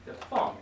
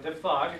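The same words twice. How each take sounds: First: "diphthong" said with an f sound, "dif-thong"; the right way: "diphthong" as "dif-thong"; correct pronunciation. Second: "diphthong" said as "dip-thong", with a hard p; the wrong way: "diphthong" with p and t sounds; wrong pronunciation. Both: Shown as a demonstration. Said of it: "It's not diphthong".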